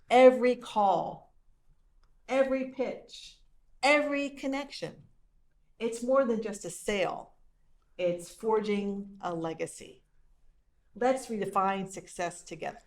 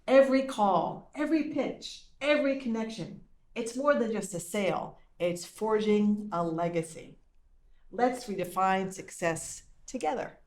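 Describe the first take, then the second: First: It is read at a slower pace. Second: It is read at a fast pace.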